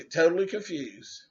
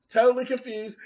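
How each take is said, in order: First: Said in the usual way. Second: "Totally" lifted higher for emphasis; emphatic repeat. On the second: Shown as a demonstration. Vlogger stressing her confusion, lifts "Totally" higher.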